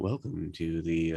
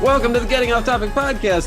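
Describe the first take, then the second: First: It is said calmly with low, sleepy energy. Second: It is said loudly with high energy.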